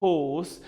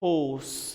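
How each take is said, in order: First: It is said in a British accent. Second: It is said in a British accent.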